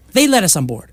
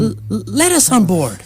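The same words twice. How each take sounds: First: Said in the usual way. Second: Stammered start; stumbling words. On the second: Acted. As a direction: trip over the first word.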